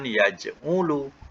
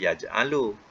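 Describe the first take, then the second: First: The vowel after the j is u. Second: The vowel after the j is a. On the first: "kalau depan" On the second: "Kalau atas"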